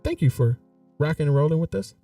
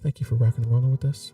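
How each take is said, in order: First: It is said in an ordinary speaking voice. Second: It is said in a smooth, silky jazz-host voice.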